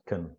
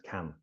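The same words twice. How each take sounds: First: The vowel is weak and reduced. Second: The vowel is full and clear. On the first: "this first can is pronounced can" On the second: "We need to clearly show that we're saying can"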